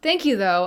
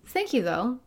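First: It sounds curt and dismissive. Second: It sounds warm and sincere. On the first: The speaker wants to end the conversation. The speaker calls it wrong. "as like, okay, thanks, bye" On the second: The speaker appreciates the gesture despite its limits. The speaker calls it right. "I appreciate the sentiment"

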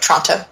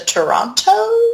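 First: The first vowel is dropped. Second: The first vowel is clearly pronounced.

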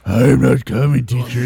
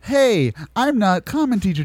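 First: It is said in a deep gruff voice. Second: It is said in a normal voice.

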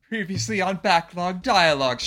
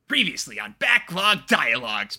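First: It is said in the feathering character voice. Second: It is said in the Karapoyo character voice. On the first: "Let me see if I can do my feathering voice" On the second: "That's the voice I used for Monokuma lines ... the voice I used for Karapoyo"

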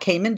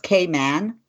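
First: The second syllable is reduced, like 'mun'. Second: The second syllable is full, like 'man'. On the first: The speaker calls it wrong. "it's not Cayman" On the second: The speaker calls it right. "Did you know it's Cayman? Like, hey, man"

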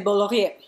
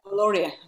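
First: The name is said with a French pronunciation. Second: The name is said with an English pronunciation. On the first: This is how native French speakers say it. "French people would say Bollorie" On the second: This is how the speaker personally said it. "I said Bollorie"

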